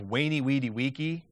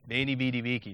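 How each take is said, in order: First: Each word begins with a rounded W sound. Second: Each word begins with a buzzing two-lip fricative. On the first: The speaker calls it wrong. "instead of wainy, weedy, weaky" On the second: The speaker calls it right. "I use the bilabial fricative"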